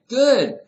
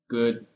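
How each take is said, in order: First: The word is said brightly, with enthusiasm. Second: The word is said flatly, without enthusiasm. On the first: The speaker seems glad to talk. The speaker calls it right. "You see?" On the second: The speaker seems uninterested in talking. The speaker calls it wrong. "What? What is that?"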